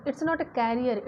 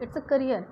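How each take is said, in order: First: Career said like carrier, with an open kai start; wrong pronunciation. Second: Career with a short uh, kuh-ree-er; right pronunciation. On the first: Teacher showing the mistake, career said slowly as kai-ree-er. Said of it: "ये मत बोले". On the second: Teacher giving the correct version, career as kuh-ree-er. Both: Shown as a demonstration.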